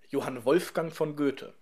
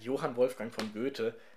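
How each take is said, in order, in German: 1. Die Tonhöhe steigt ehrfürchtig auf Wolfgang. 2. Der Name wird flach gesagt, ohne Melodie. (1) "du musst bei Wolfgang so ehrfurchtsvoll hochziehen" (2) "Ohne die Melodie geht's nicht. Wer sagt"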